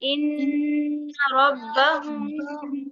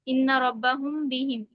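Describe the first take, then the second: First: It is said slowly with a short nasal hold. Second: It is said quickly without holding the m sound. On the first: The speaker calls it right. "थोड़ा रुक कर अदा पढ़ें" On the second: The speaker calls it wrong. "जल्दी से पढ़ के निकल जाएँ ... ये गलत हो जाएगा"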